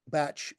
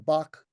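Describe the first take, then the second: First: The name sounds like the word 'batch'. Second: The name does not sound like 'batch'.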